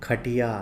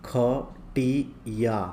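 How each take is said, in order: First: Said in the usual way. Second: Slow, drawn-out ख-टी-या; syllable by syllable. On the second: Shown as a demonstration. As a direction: sound out खटिया in separate long syllables. Word broken up before blending.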